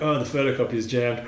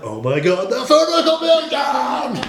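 First: It is said calmly, without alarm. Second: It is said in a stressed, alarmed way.

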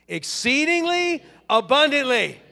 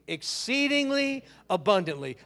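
First: It is said with lively, excited energy. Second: It is said in a calm, ordinary way. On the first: "this time with some excitement" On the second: "say that with me"

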